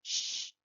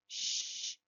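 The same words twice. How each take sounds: First: Loud unvoiced Sh, as if hushing someone; shushing. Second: Sh, a hissed unvoiced shush; sh sound. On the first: Profesora hace Sh para mandar callar. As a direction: hush someone with Sh. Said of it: "para que una persona se calle". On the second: Profesora demostrando el sonido sh. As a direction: push out a long sh. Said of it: "el sonido sh". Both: Shown as a demonstration.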